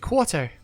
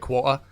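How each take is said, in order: First: The word is said carefully with every sound pronounced. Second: The word is said in a casual everyday way. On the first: This is how the speaker talks when voice acting. "when I'm voice acting, I'd say quarter, you know, and actually pronounce the fucking word the way it's supposed to be said" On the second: This is how the speaker talks normally. "I normally say quarter"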